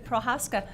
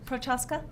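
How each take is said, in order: First: No hard K sound is in the middle. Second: A hard K sound is in the middle. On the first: "No C" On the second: "Did I say it right?"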